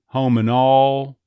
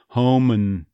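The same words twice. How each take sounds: First: Home and all, slow, louder, with the D dropped and all as aw; slow Texas home and all. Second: Home and with the D dropped, home n; Texas home and. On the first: An accent coach slowly demoing home and all in Texas. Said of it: "L sound becoming a little more like a schwa". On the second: An accent coach demoing Home and in Texas. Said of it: "syllabic N". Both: Shown as a demonstration.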